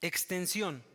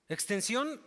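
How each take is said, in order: First: Said in the usual way. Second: Extensión said again with a questioning rise; rising repeat. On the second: Shown as a demonstration. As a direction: lift the end of Extensión as if checking they follow. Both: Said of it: "es extensión".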